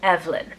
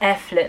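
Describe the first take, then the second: First: The middle consonant is a v sound. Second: The middle consonant is an f sound. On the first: "spelling of the name Evelyn" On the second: "I think is better how it's pronounced"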